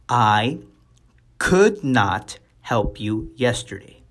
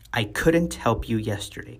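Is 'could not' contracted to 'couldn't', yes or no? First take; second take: no; yes. First: 'Could not' is said as two full words. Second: 'Could not' is contracted to 'couldn't'.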